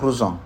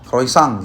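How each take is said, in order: First: It is said the careful original way. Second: It is said the common everyday way. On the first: This is the proper way to say it. The speaker calls it right. "Tapi benar melafalkan adalah croissant" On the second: This is how many people usually say it. The speaker calls it wrong. "orang itu sering melafalkannya namanya croissant gitu ya"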